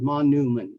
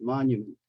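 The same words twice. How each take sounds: First: The N is a plain N sound. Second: The N is followed by a y sound. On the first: The speaker calls it wrong. "not monument" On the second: The speaker calls it right. "but monument"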